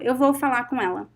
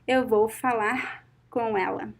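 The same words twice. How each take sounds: First: Spoken fast, with the final R of falar inaudible. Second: Spoken slowly, with the final R of falar audible. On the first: "when I speak fast, you cannot hear it" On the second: "if I speak slowly"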